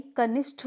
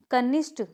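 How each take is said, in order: First: कनिष्ठ ending in aspirated Th; correct pronunciation. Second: कनिष्ठ ending in unaspirated T; wrong pronunciation. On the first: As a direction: model कनिष्ठ with a puff on ठ. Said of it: "होता है". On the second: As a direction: demonstrate कनिष्ठ as kanishT, no puff. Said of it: "नहीं". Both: Shown as a demonstration.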